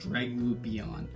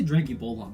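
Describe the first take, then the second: First: The name has no L sound before the end. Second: The name has an L sound before the end. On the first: The speaker calls it right. "I think it's Dragubion" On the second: The speaker calls it wrong. "I say Dragubolon, but that's not right"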